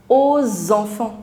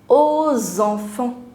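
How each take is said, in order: First: A linking z sound joins the two words. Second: A linking z sound joins the two words.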